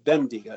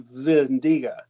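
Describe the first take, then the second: First: The word begins with a B sound. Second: The word begins with a V sound. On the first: "It looks like a B" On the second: "They always say V"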